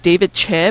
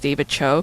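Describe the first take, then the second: First: The surname ends in an 'eh' vowel. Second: The surname ends in an 'oh' vowel. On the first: The speaker calls it right. "It's actually pronounced David Che" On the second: The speaker calls it wrong. "everybody mispronounces as David Cho"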